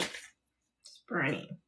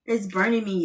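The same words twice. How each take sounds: First: Much softer and slow, strained by stinging eyes; weak, drawn-out "burning" from onion tears; pained, fading complaint. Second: Said in the usual way. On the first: Real, not acted. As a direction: let it trail off in real discomfort. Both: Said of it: "this is not funny".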